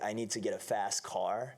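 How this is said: It is spoken in an American accent. "Et américain"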